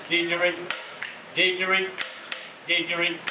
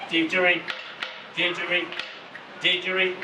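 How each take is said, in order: Both takes have the same delivery.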